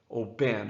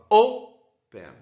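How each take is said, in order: First: The stress is on the last syllable. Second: The stress is on the first syllable. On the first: The speaker calls it wrong. "Eu não falo open, open" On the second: The speaker calls it right. "eu falo open. Então é a primeira"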